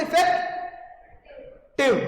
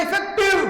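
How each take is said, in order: First: इफेक्टिव drawn out very slowly, the टिव stretched; stretched stress. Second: इफेक्टिव called out higher and louder; loud stress. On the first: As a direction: drag out इफेक्टिव to show where the stress sits. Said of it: "किस पे stress है?". (इफेक्टिव को बहुत खींचकर बोलना) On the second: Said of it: "और जोर से बोलो इफेक्टिव". (इफेक्टिव ज़ोर से ऊँचे स्वर में) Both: Shown as a demonstration.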